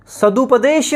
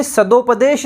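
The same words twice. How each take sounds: First: सदुपदेश said as sad-u-padesh with a clear u; slow, clear u after द in सदुपदेश; correct form. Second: सदुपदेश said as sad-o-padesh with an o; o after द in सदुपदेश; wrong form. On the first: Teacher to students stressing the correct u-form. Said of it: "सदुपदेश होता है". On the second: Teacher to students marking the wrong o-form. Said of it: "सदुपदेश नहीं होता". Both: Shown as a demonstration.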